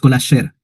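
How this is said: The stress falls on the second word. The speaker calls it right. "la acentuación recae en la segunda palabra"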